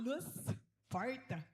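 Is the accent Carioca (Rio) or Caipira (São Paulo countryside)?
Caipira. It is said in a Caipira countryside accent.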